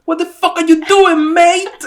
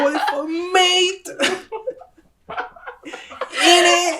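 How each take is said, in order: First: Put-on British accent, much higher and louder. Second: Put-on slower, much higher British accent, half laughing. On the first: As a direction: bark it like an angry British cyclist. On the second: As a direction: drag out "mate" in a mock British accent. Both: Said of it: "[name]'s impression of a British accent".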